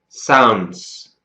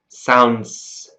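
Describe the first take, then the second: First: The ending has an s sound, split in two. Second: The ending has an s sound, split in two.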